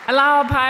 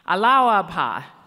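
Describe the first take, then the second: First: The greeting is said at normal speed. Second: The greeting is said slowly.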